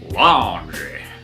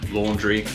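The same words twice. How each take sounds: First: It is said in a put-on American accent. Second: It is said in his ordinary, non-American accent.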